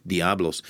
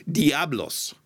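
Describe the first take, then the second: First: Diablos tried with a Greek accent; a tentative Greek-sounding Diablos. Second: Diablos with a rolled Spanish flair, pitched up; Spanish accent. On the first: Pastor guessing at a Greek-accented Diablos. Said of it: "maybe with a Greek accent". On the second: Pastor playfully saying the word in Spanish accent. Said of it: "I'm saying it with a Spanish accent". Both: Shown as a demonstration.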